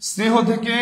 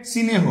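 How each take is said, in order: First: Said in the usual way. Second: স্নেহ said as si-neh, a short i slipped in before the s-n cluster; vowel added before স্নেহ. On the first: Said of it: "আগে মানে পূর্বে স্বরের আগমন". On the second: Shown as a demonstration. Teacher showing students the added vowel, স্নেহ spoken as si-neh. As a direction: split স্নেহ into two syllables, sinéh, with an i up front. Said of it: "হ্রস্ব ইকার থাকলেও এটা উচ্চারিত".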